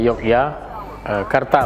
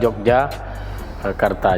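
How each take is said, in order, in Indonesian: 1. Nama itu diawali dengan bunyi 'y'. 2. Nama itu diawali dengan bunyi 'j'. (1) "Sebenarnya yang benar itu adalah"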